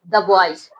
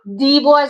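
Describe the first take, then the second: First: 'The' is said with a short 'uh' vowel. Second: 'The' is said with a long 'ee' vowel. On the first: The speaker calls it right. "द boys होता है" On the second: The speaker calls it wrong. "दी boys नहीं होता"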